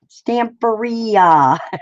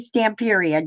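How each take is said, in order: First: It is said to rhyme with pizzeria. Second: It is said not rhyming with pizzeria. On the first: The speaker calls it right. "Pizzeria, Stamperia" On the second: The speaker calls it wrong. "I might still say Stamperia just because I like it"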